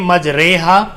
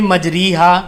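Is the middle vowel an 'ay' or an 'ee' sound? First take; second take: ay; ee. First: The middle vowel is an 'ay' sound. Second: The middle vowel is a long 'ee' sound. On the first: The speaker calls it right. "अगर हम पढ़ें मजरेहा तो ये मजहूल है" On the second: The speaker calls it wrong. "अगर इसको हम पढ़ें मजरीहा तो ये मारूफ है"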